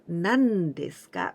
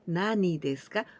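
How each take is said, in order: First: The first word is the short form nan. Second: The first word is the full form nani. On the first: The speaker calls it right. "but nan desu ka with this D sound" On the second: The speaker calls it wrong. "we don't say nani desu ka"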